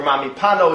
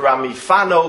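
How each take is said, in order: First: The last word begins with a P sound. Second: The last word begins with an F sound. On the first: "it's not the Ramami Pano" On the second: "it's the Rami Fano, because Fano is a town in Italy"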